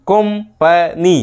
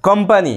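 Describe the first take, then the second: First: company very slowly as কোম, পা, নি; three-part split. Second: Said in the usual way. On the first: Shown as a demonstration. Teacher shows three syllables, slow broken company. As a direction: pause between the syllables of company. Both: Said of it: "এই যে তিনটে syllable হলো".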